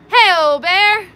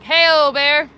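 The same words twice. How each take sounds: First: It is shouted with lots of excitement. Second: It is called out with less excitement.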